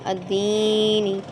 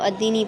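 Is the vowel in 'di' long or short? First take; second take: long; short. First: The 'di' vowel is drawn out long. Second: The 'di' vowel is kept short. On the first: The letter ya lengthens the vowel. "ये भी तो हम दी को खींचते हैं" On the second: There is no ya to lengthen the vowel. "अगर ये या नहीं होता तो हम इसको अद्दीनी पढ़ते"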